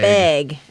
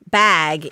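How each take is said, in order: First: The vowel is a raised 'eh' sound. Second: The vowel is an open 'ah' sound. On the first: "is eh" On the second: "the a sound or the ah sound"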